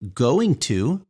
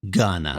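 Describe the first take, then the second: First: Both words are said fully and clearly. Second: The words are blended into one short word.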